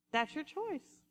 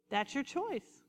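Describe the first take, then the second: No difference in how they are said.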